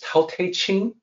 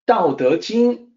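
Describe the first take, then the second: First: It is said with T and CH sounds. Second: It is said with D and J sounds. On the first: The speaker calls it wrong. "misread it as Tao Te Ching" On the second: The speaker calls it right. "with the D sound and the J sound"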